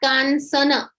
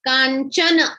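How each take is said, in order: First: The middle consonant is pronounced as 's'. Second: The middle consonant is pronounced as 'ch'. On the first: The speaker calls it wrong. "not Kansana" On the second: The speaker calls it right. "we pronounce it as Ch"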